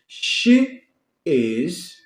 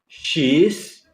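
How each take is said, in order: First: It is said as two full separate words. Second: It is shortened into one contracted syllable.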